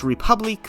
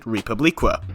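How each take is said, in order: First: The name is said with its French-sounding ending. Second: The name is said with a changed, made-up ending. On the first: "I think it's pronounced Republique" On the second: "I am instead going to pronounce it Republiqua"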